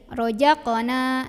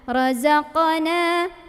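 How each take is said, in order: First: The middle consonant is a j sound. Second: The middle consonant is a buzzing z sound. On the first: The speaker calls it wrong. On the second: The speaker calls it right.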